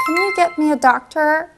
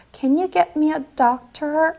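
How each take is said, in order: First: Slow second take. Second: Slow first take. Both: Shown as a demonstration. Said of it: "한번 해볼까요".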